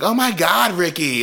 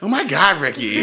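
First: High, annoyed groan of his name; exasperated wife. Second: High, annoyed groan with a laugh; exasperated wife. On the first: Bus driver fed up with her husband Ricky, high exasperated. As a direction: brush off the nagging husband. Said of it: "She's like". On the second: Bus driver fed up with Ricky again, high exasperated. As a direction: wave him off again. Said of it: "He's like". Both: Retold or imitated.

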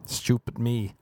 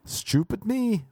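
First: Said in the usual way. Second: High, slow cartoon voice; mock self-scolding. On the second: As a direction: drag it out in a silly put-on voice. Repeated self-mock, first take high.

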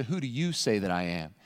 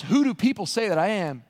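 First: Quiet, intimate weight on "you"; stress on YOU, quiet. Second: Said in the usual way. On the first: Shown as a demonstration. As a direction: lower and softer, leaning on "you". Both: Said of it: "But then he gets to".

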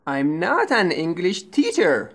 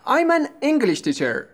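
First: "teacher" stressed as the second word. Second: "English" stressed, "teacher" left unstressed. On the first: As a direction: put the weight on teacher, not on English. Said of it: "the stress is on the second word". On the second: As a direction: punch English, let teacher fall away. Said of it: "please pay attention to the stress". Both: Shown as a demonstration.

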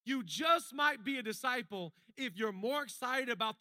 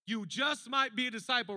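First: Said in the usual way. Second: Sung refrain over music; sung line. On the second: Shown as a demonstration. Pastor sings the sermon's refrain over music. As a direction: sing it like a chorus hook. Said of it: "sing music".

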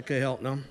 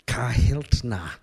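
First: Said in the usual way. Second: Slow, drawn-out Midwestern "Kahiltna"; Don Sheldon. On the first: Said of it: "He's pointing out things to me". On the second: Retold or imitated. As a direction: say Kahiltna in an exaggerated Midwestern accent. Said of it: "this exaggerated Midwestern accent".

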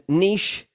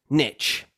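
First: Niche as neesh; British niche. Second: Niche said short like nitch; American nitch. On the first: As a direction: say niche with a long ee and sh. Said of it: "the first version is correct". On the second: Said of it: "the second version is American". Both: Shown as a demonstration.

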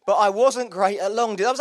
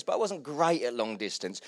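First: Wasn't pushed up louder with a rising lift; stress on wasn't. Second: Said in the usual way. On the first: Acted. Preacher to congregation, hitting wasn't with a louder rise. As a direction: lean hard on wasn't, louder. Repeats line for emphasis.

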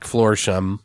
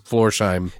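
First: Florsheim said as "FLOR-shum"; reduced name ending. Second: Florsheim said as "FLOR-shime"; corrected name ending. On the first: Host names the French actor, Florsheim as "FLOR-shum". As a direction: swallow the end of Florsheim to "shum". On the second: Host corrects himself on the actor's name, Florsheim as "FLOR-shime". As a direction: give Florsheim a full "shime", rhyming with time. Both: Real, not acted.

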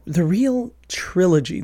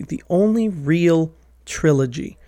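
First: Said in the usual way. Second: "only" pushed as the key word, the rest plain; stress on only. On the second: Real, not acted. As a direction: correct yourself by stressing "only".

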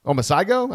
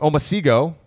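First: "Omasigo" with sigh before go, pitched up as a question; questioning "Omasigo", sigh in the middle; alternative pronunciation. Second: "Omasigo" with a see sound before go; tentative "Omasigo", see in the middle; unsure pronunciation. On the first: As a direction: try "Omasigo" as oh-mah-SIGH-go, higher. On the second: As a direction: try "Omasigo" as oh-mah-SEE-go. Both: Shown as a demonstration. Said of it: "I don't know".

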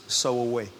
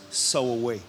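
No difference in how they are said.

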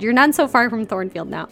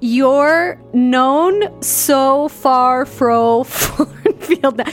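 First: Said in the usual way. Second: Very slow, high, loud fake Yorkshire; bad Yorkshire accent. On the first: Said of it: "That's what he said". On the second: Reader retrying the driver's line, botched Yorkshire accent. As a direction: stretch every word in a hammed-up Yorkshire try. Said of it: "you don't have a Yorkshire accent".

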